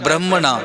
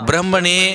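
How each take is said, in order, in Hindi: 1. शब्द 'na' ध्वनि पर समाप्त होता है। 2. शब्द 'ne' ध्वनि पर समाप्त होता है। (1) "हुण मैं उच्चारण कीता है ब्रह्मणा" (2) "ब्रह्म ने नहीं उच्चारण किया"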